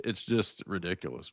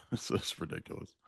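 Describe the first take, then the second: First: Said in the usual way. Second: Laughing. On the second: Real, not acted. Laughing exasperated repetition, unvoiced.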